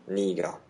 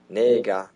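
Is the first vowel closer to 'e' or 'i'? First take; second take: i; e. First: The first vowel sounds like 'i'. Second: The first vowel sounds like 'e'. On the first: "vous l'entendrez la plupart du temps prononcé en niga" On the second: "ça va devenir aussi nega"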